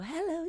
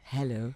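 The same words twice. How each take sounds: First: It is said in a light, small voice. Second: It is said in a big, deep voice.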